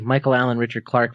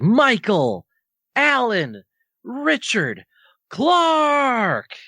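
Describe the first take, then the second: First: The name is said at normal speed. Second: The name is said slowly, word by word.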